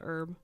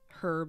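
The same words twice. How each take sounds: First: It is said the non-British way. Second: It is said the British way. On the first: "instead of" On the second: "how they say"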